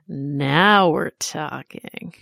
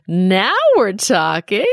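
First: It sounds hushed and conspiratorial. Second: It sounds like an eighties talk-show host.

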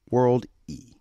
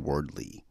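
First: The L sound comes before the D. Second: The L sound comes after the D. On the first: The speaker calls it right. "It's World and Y at the end" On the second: The speaker calls it wrong. "I always say Word Lee"

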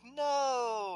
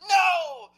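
First: It is said flatly, sounding fake. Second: It is shouted with lots of life.

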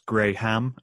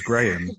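First: The h sound is hard and strongly pronounced. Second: The h sound is soft and light. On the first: The speaker calls it wrong. "they really go hard on the H" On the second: The speaker calls it right. "instead of coming out as Graham"

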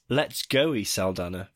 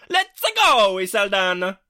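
First: It is read out in a plain voice. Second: It is said with gusto, like Mario.

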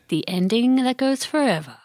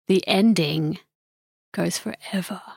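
First: The title is announced plainly. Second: The title is announced dramatically.

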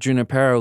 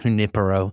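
First: The name is said with an English pronunciation. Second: The name is said with a Spanish pronunciation. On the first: The brand is Californian, not Spanish. "the way you're saying that, by the way, as well. That's my preferred pronunciation" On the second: The name is treated as a Spanish word. "This is not Junipero. We ain't out there in Spain"

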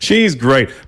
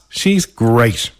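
First: It sounds sincere. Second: It sounds sarcastic.

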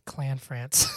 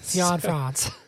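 First: The first syllable contains an L sound. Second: The first syllable contains no L sound. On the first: The speaker calls it wrong. "I thought it was an L. I said Clanfrance" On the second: The speaker calls it right. "it's an I"

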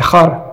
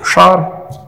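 First: It is said with the northern Pashto sound. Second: It is said with the southern Pashto sound.

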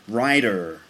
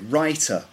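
First: The middle consonant is a soft D-like sound. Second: The middle consonant is a clear T sound. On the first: This is the American pronunciation. "they'd say rider" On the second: This is the British pronunciation. "we would say writer"

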